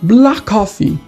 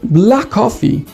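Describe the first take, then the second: First: The k sounds merge into one long k. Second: The k sounds merge into one long k.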